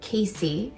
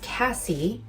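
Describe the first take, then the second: First: The first vowel is long, as in 'day'. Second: The first vowel is short, as in 'cat'. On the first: The speaker calls it right. "it's pronounced Casey" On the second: The speaker calls it wrong. "It's often misre- mispronounced as Cassie"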